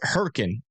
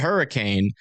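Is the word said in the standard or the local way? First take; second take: local; standard. First: The word is said the local town's way. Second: The word is said the standard, spelled-out way. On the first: This is how the locals say the town's name. "but they pronounce it Hurricane" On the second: This is how the word is spelled. "It's it's spelled hurricane"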